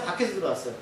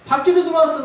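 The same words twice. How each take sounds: First: Said in the usual way. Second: 밖에서 said higher and louder, landing firmly; 밖에서를 높고 힘주어 강조; emphatic answer. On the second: Shown as a demonstration. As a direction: answer your own question with force on 밖에서.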